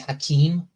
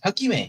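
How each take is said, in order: First: The name is said in a non-Japanese way. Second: The name is said in a Japanese way. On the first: This is the speaker's preferred version. The speaker calls it wrong. "I quite like to say Hakeem" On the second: This follows the original language. The speaker calls it right. "Hakime would be the more Japanese way of saying it"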